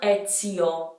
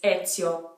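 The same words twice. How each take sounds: First: The i vowel is long and strong. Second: The i vowel is short and quick. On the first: The speaker calls it wrong. "Now the I isn't extremely strong in this name. It's not Ezio" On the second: The speaker calls it right. "The I is very quick"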